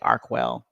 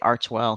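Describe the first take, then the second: First: The middle consonant is a 'k' sound. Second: The middle consonant is a 'ch' sound. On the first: "some people say Arkwell" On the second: "some people say Archwell"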